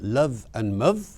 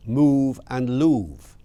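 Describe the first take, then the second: First: "move" said muv to rhyme with love; short-vowel rhyme. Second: "loove" with a long oo to rhyme with move; long-vowel rhyme. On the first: Lecturer offers listeners one possible old rhyme, "move" as muv. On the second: Lecturer offers the other possible rhyme, love as "loove". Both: Shown as a demonstration. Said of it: "which way was it".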